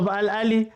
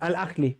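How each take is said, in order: First: It has no throaty sound in the middle. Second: It has a throaty kh sound in the middle. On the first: The speaker calls it wrong. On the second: The speaker calls it right.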